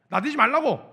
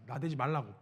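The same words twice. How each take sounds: First: 말라고 snapped out loud and higher; scolding shout. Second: Said in the usual way. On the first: Retold or imitated. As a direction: bark 나대지 말라고 like a rebuke. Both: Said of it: "말리기 시작한 거예요".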